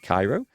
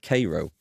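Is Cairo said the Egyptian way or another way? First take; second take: Egyptian way; another way. First: It is said like the Egyptian city. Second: It is not said like the Egyptian city. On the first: "I'd pronounce it Cairo, like it from like the Egyptian city" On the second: "Or is it pronounced Cairo?"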